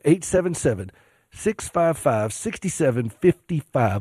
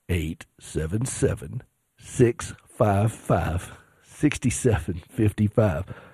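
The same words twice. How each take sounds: First: The number is said at a fast pace. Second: The number is said at a slow pace.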